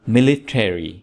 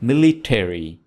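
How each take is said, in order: No difference in how they are said.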